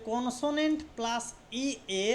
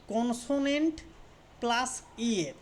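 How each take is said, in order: Both takes have the same delivery.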